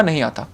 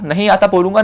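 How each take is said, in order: First: नहीं आता said softly, lower, falling on नहीं; quiet admission. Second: Said in the usual way. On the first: Shown as a demonstration. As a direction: let नहीं आता drop to a quiet honest fall. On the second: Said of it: "तो मैं honest रहूँगा".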